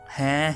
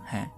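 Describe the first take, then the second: First: It is said loudly and forcefully. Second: It is said quietly and softly.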